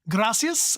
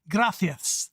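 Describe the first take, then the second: First: The middle consonant is an s sound. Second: The middle consonant is a th sound. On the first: This is how it sounds in Central America or Mexico. "gracias with an S sound" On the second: This is how it sounds in Spain. "more of a th sound"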